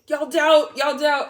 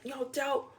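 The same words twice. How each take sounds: First: Higher, much louder sassy call; teasing shout. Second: Said in the usual way. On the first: Real, not acted. Reader teasing doubtful viewers, loud sassy call.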